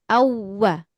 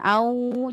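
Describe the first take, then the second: First: The w is pressed and carried into 'wa'. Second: The 'au' is drawn out without pressing. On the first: The speaker calls it right. "hanya ditekan saja" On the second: The speaker calls it wrong. "bukan au, jangan terlalu lama ya"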